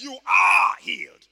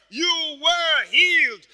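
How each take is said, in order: First: Loud, drawn-out ARE before "healed"; stress on ARE. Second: Loud, drawn-out WERE before "healed"; stress on WERE. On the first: Preacher quoting Isaiah's prophecy, long loud stress on "are". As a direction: stretch "are" out at full voice. Isaiah's tense against Peter's. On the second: Preacher proving healing is past, long loud stress on "were". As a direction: stretch "were" high and loud. Contrasts Peter with Isaiah. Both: Shown as a demonstration.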